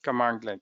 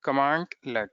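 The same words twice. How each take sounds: First: "Commandlet" as one word, no gap before let; joined-up pronunciation. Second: "Commandlet" split in two, command, then let; pronunciation demo. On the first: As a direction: run "Commandlet" together, lower than the sounded-out take. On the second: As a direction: say "Commandlet" with a clear gap before let. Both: Shown as a demonstration. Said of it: "this is this way".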